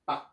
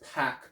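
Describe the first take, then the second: First: The p sounds carry no puff of air. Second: The p sounds carry a breathy puff of air. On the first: The speaker calls it right. "You have to lose the H and you have to lose the E. You have to say pak" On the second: The speaker calls it wrong. "a Westerner may pronounce this pack"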